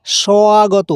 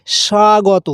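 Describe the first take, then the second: First: স্বাগত said as swagoto with a wa glide; wa glide take. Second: স্বাগত said quickly as shagoto; স্বাগত with no glide; plain first take. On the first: Teacher's second take of স্বাগত, wa glide. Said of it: "অথবা ওয়ার মতো উচ্চারণ হয়". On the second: Teacher's first take of স্বাগত, quick and plain. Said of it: "হয় এটার মতন ও". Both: Shown as a demonstration.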